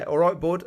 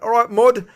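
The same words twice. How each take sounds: First: Said in the usual way. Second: "mud" blurted high and loud, a mashed-up mate and bud; mixed up greeting. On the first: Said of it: "Bud and mate, and it came out mud". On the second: Retold or imitated. Greeting the footballer in passing, blurting "mud". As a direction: shout "All right, mud" as a flustered slip. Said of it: "and it came out mud".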